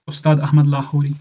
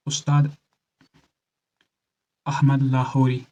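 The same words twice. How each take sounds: First: Said in the usual way. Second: Name split by a long pause; slow and measured for note-taking; slow dictation. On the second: Shown as a demonstration. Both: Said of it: "धीरे से बोल रहा हूँ".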